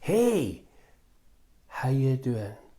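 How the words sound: It is said in a flat, gloomy tone.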